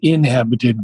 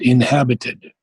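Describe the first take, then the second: First: The stress falls away from the 'hab' syllable. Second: The stress falls on the 'hab' syllable. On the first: The speaker calls it wrong. "It's not inhabited" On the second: The speaker calls it right. "but inhabited. So the accent is on the H"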